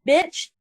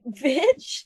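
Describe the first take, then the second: First: Mock angry outburst, pitched up; retold angry insult. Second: Retold baffled, questioning insult with rising tune; confused retort. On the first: Angry woman at a retreating shopper, retold insult. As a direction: imitate her spitting out an insult. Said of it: "she's yelling at me". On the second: Shopper throwing the purse back at her, confused retort. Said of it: "'cause I was so confused".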